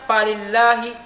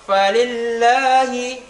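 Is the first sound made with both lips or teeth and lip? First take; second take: both lips; teeth and lip. First: The f is made by pressing both lips together. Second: The f touches upper teeth to lower lip. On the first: The speaker calls it wrong. "ah itu salah. Karena kenapa? Bertemunya dua bibir" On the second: The speaker calls it right. "bertemunya ujung seri dua gigi atas dengan bibir bawah"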